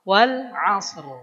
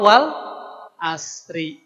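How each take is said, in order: First: It ends on a bare r with no vowel. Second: It ends with a short i vowel. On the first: The speaker calls it right. "Ri-nya jadi sukun" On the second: The speaker calls it wrong. "apalagi kalau wal asri"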